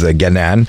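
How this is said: The name is said the Egyptian way. "if you're Egyptian, you're going to pronounce it as Ganan"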